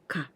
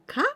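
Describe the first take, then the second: First: The pitch falls at the end. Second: The pitch rises at the end. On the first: The speaker is talking to themselves. "This is I talk to myself" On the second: It asks a question. "This is the question"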